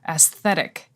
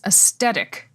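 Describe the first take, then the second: First: The middle consonant is a soft th sound. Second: The middle consonant is a plain t sound. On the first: "I say aesthetic, like th th th aesthetic" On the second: "Giacomo says aesthetic"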